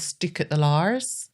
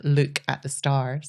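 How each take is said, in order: First: Slow, swapped "stook at the lars" with the s moved onto "stook"; tipsy spoonerism. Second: Slow Scottish "look at the stars" with long double O's in "look"; Scottish accent. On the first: Retold or imitated. Retelling her tipsy slip on the walk home, slow spoonerism. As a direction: swap the sounds, slowly: "stook at the lars". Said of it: "But it came out as". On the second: Shown as a demonstration. Explaining the phrase to podcast hosts, in a Scottish accent. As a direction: stretch the Scottish OO in "look", slowly. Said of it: "it's hard to say this Scottish accent".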